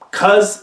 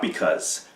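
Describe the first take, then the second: First: The word is shortened to one syllable. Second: The word is said with both syllables. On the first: The speaker calls it wrong. "truncate these words" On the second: The speaker calls it right. "fully pronouncing your words"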